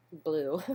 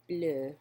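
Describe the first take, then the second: First: Said in the usual way. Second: Bleu said as in French, rounded vowel, no glide; a schoolgirl French take on Bleu. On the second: Shown as a demonstration. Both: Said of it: "terrible French accent".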